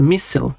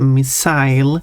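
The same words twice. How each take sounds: First: The ending rhymes with fossil. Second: The ending rhymes with mile. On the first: "like fossil" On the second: "because you got the "ile" here, as in, I don't know, a very common word like mile"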